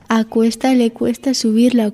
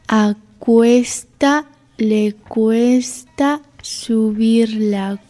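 First: The phrase is spoken at a normal pace. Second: The phrase is spoken at a slow pace.

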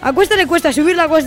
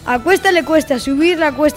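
First: It is spoken at a fast pace. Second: It is spoken at a normal pace. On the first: "Y ahora vamos con velocidad rápida" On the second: "Vamos con la velocidad normal"

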